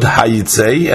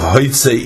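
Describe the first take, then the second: First: The word begins with a 'ha' sound. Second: The word begins with a 'ho' sound. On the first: Forcefully take them out. "So the pronunciation is hayitzei, and it's written with a yud" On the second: Ask them to go out. "and it's written with a vav"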